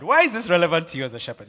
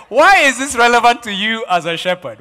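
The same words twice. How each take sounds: First: Said in the usual way. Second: Louder, with a laugh in the voice; loud laughing question. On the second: Real, not acted. Preacher repeats question, then plainer.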